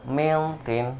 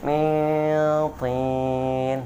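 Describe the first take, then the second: First: Min tin with a crisp clear n; wrong reading. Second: Min tin with the n hummed long; correct nasal hold. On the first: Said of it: "Yang salah seperti ini". (mintin dibaca jelas tanpa dengung) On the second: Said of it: "Jadi yang betul gimana tadi?". (mintin dengan dengung dua harokat) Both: Shown as a demonstration.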